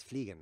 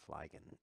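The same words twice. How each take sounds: First: "fliegen" said as FLEE-gen; correct German pronunciation. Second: "fliegen" said as FLY-gen; wrong pronunciation. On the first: Streamer correcting the German, "fliegen" said properly as FLEE-gen. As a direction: give "fliegen" a long ee vowel. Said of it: "It's fliegen, though". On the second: Streamer showing the mistake, "fliegen" said wrongly as FLY-gen. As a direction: give "fliegen" an English "fly" vowel. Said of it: "It's not fliegen". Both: Shown as a demonstration.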